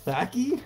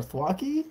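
First: "Thwacky" with a short a, as in "whack"; unsure pronunciation. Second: "Thwacky" said as THWAH-kee; alternative pronunciation. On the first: Trying out a card's name, "Thwacky" with a cat vowel, questioning. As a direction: ask "Thwacky?" rhyming with "tacky", pitch lifted. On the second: Offering another reading of the card's name, "Thwacky" as thwah-kee, questioning. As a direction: ask "Thwacky?" with an open ah vowel. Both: Real, not acted. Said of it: "How do you pronounce that?".

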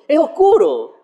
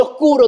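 First: "oscuro" tossed up high, with a laugh; harmless sense. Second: Mock-ominous. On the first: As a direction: say "oscuro" as a light, innocent description. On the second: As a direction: make "oscuro" sound dark and heavy. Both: Shown as a demonstration. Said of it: "no significa que sea oscuro".

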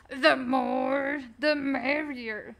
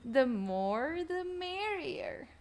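First: Imitating someone else's voice. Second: Softer put-on voice, rising high on merrier; second go at the impression, lilting up high; imitating someone else's voice. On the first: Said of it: "I don't think that's how they sound". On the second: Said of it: "that's how they sound".

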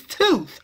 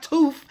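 First: "tooth" ending in a proper TH. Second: "tooth" said as "toof". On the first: Mom correcting herself, "tooth" with TH. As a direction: say "tooth" with a clear TH, not F. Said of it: "it's tooth". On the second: Mom correcting herself, "tooth" wrongly as "toof". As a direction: end "tooth" on an F. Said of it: "it's not tooth". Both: Retold or imitated.

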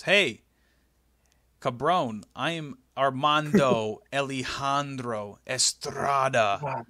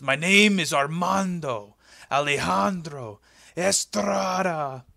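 First: Put-on slow, rolled Spanish accent introducing himself, a laugh breaking in; mock Spanish accent. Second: Put-on slow, louder, drawn-out Spanish accent announcing the name; grand mock Spanish accent. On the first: Estrada introducing himself to Vince backstage, mock Spanish accent. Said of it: "and he goes". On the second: Estrada repeating his name for Vince, grand mock Spanish accent. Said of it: "And he goes".

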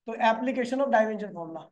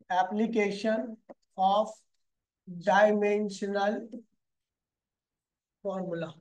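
First: Said in the usual way. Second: "application of dimensional formula" spelled out word by word, very slowly and softly; slow dictation. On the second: Shown as a demonstration.

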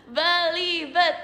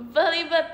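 First: "Belibet" stretched slowly, syllable by syllable; slow deliberate take. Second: Said in the usual way. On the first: Shown as a demonstration. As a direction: sound out "Belibet" at half speed. Retrying the word she stumbled on. ("Belibet" dieja pelan per suku kata)

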